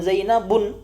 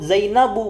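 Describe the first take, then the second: First: The word ends in an added n sound. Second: The word ends in a plain u vowel. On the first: The speaker calls it wrong. "bukan Zainabun" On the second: The speaker calls it right. "Jadilah dia disebut Zainabu"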